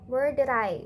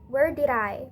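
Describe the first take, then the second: No difference in how they are said.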